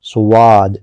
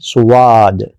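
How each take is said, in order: First: A w-sound comes between s and long a. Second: The same.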